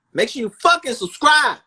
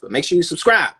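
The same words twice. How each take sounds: First: "fucking" yelled high and loud; shouted demand. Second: Said in the usual way. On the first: Real, not acted. Host yelling at listeners to subscribe, loud and high. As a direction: bark "Make sure you fucking subscribe" up high.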